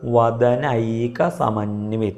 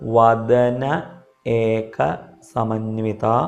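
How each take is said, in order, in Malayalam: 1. വാക്കുഭാഗങ്ങൾ ഒരു രൂപത്തിലേക്ക് ചേർത്ത് ചൊല്ലുന്നു. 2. വാക്കുഭാഗങ്ങൾ വെവ്വേറെ കഷണങ്ങളായി ചൊല്ലുന്നു.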